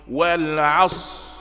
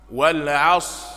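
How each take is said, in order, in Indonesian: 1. Bunyi r di akhir tidak dibunyikan. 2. Bunyi r di akhir tidak dibunyikan.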